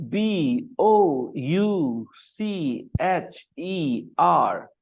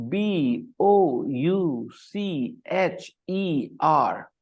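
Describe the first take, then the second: Both takes have the same delivery.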